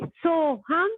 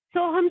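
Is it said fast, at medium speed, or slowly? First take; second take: medium; fast. First: It is said at medium speed. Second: It is said very fast.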